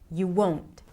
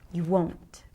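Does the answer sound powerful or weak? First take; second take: powerful; powerful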